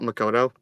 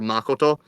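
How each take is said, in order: First: The name is pronounced the English way. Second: The name is pronounced the Japanese way. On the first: The speaker calls it wrong. "not Makoto" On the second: The speaker calls it right. "some people try to actually pronounce the Japanese a little bit better"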